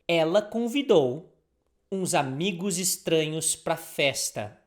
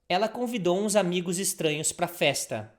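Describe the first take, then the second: First: It is said at a slower pace. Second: It is said at a faster pace.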